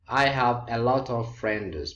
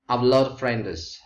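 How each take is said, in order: First: Every word of "a lot of" is said clearly. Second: "A lot of" is run together and shortened.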